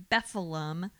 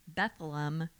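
The two takes are said the same way.

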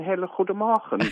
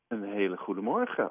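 First: It is spoken in a put-on German accent. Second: It is spoken in a plain Dutch accent.

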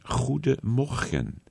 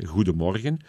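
First: It is said with a more guttural Netherlands Dutch accent. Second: It is said with a Belgian Flemish accent.

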